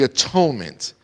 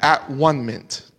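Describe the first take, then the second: First: The middle part sounds like 'tone'. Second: The middle part sounds like 'one'.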